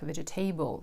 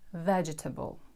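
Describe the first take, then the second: First: The ending sounds like the full word table. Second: The first syllable is stressed and the ending reduced. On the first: The speaker calls it wrong. "you tend to pronounce this table like vegetable" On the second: The speaker calls it right. "the stress is on the first syllable"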